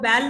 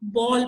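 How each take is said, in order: First: The vowel is a front 'ae' sound. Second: The vowel is a rounded 'aw' sound. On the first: The speaker calls it wrong. "वो बैल नहीं पड़ेगा इसको" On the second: The speaker calls it right. "वो इसको बॉल पड़ेगा"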